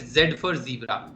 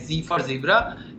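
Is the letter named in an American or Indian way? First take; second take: Indian; American. First: The letter is named the Indian way. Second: The letter is named the American way.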